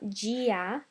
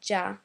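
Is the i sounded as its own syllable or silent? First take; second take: separate; silent. First: The i is sounded as a separate syllable. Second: The i is silent, giving one syllable. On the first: The speaker calls it wrong. "it's not Gia" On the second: The speaker calls it right. "but rather Ja"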